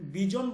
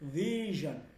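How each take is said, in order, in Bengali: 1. মাঝের ব্যঞ্জনটি কঠিন j ধ্বনি। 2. মাঝের ব্যঞ্জনটি নরম zh ধ্বনি। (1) "আমি কিন্তু জ বলে বিজন বলি নাই" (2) "আমি বলছি ভিশন"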